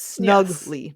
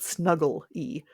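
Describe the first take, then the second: First: The word is said with two syllables, snug-ly. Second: The word is said with three syllables, snug-gle-y. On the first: In a snug, close-fitting way. The speaker calls it right. "It's snugly" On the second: Cuddly and cosy. The speaker calls it wrong. "not snuggle-y"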